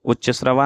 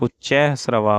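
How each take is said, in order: First: उच्च श्रवा with short "ucch", no ai vowel; wrong pronunciation. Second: Said in the usual way. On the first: Shown as a demonstration. Teacher shows students the error, उच्च श्रवा with short first word. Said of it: "नहीं". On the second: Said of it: "होता है".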